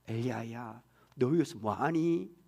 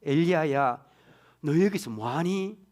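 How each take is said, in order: First: Soft, whispered and slow; whispered tender call. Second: Slow, gentle call, like a mother; warm. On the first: God gently asking Elijah, in a tender whisper. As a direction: breathe the question gently to him. God's gentle question repeated. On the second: A mother greeting her returning daughter, slow and tender. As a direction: ask it like a mother welcoming her daughter home. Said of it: "따뜻하게 들립니다". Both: Shown as a demonstration.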